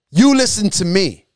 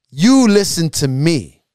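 First: Said in the usual way. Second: You listen to me, slow and stressed on You; preacher turns it slow and firm on You; slow, emphatic command. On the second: Shown as a demonstration.

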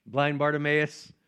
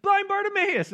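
First: Said in the usual way. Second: High-pitched mock call to BARTIMAEUS; crowd calling out. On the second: People in heaven hailing him by his old name, high mock call. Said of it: "people are like".

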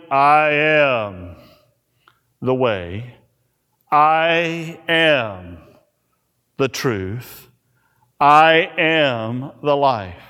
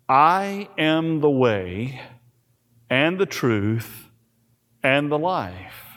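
First: "I am" punched each time, pause before the rest; stress on I AM. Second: Said in the usual way. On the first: Shown as a demonstration. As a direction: say "I am" as if in bold caps, then "the way", "the truth", "the life". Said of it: "I am in all caps, bold, underlined". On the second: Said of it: "I am in all caps".

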